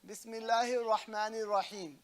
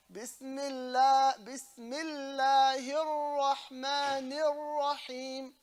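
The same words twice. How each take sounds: First: "Bismillahir Rahmanir Rahim" with single, unheld l and r; unstressed "Bismillahir Rahmanir Rahim", no held consonants; shaddas dropped. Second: Slow, higher "Bismillahir Rahmanir Rahim" with lam and ras held; chant-like "Bismillahir Rahmanir Rahim", long held consonants; held shaddas. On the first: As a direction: run through "Bismillahir Rahmanir Rahim" without doubling any letter. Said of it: "You don't say". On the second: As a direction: restart on "Bismillah", stretching the doubled l, then each r. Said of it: "You hold the lam". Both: Shown as a demonstration.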